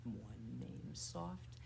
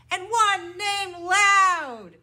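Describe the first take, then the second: First: Low, hushed, drawn-out voice; soft. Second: High, drawn-out shout; loud. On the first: Teacher to children in a bird rhyme, soft. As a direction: sink down small and slow. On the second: Teacher to children in a bird rhyme, loud. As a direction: belt it out big and slow. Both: Shown as a demonstration.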